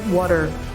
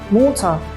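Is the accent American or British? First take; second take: American; British. First: The first vowel is an uh sound. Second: The first vowel is an O sound. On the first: "Americans say water" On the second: "we pronounce it like a O sound"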